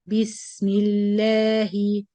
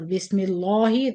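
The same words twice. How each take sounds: First: The 'la' is light and thin. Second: The 'la' is heavy and full-mouthed. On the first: The speaker calls it right. "So keep it la" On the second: The speaker calls it wrong. "Or Bismillahi. This is tafkhim"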